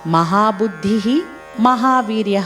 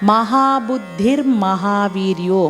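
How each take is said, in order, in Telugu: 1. ఈ రెండు పేర్లు వేరువేరు పదాలుగా పలకబడతాయి. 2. ఈ రెండు పేర్లు కలిపి ఒకే పదంగా పలకబడతాయి. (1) "మహాబుద్ధి మహావీర్య అన్నాం" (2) "కలిపినప్పుడు"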